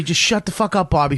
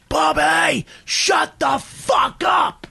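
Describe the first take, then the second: First: Said in the usual way. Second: High, drawn-out mock scream; furious scream. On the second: Patrice screams at Bobby in the cab, furious retold shout. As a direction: scream each word out slowly, fed up. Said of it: "never seen him scream at anybody like that".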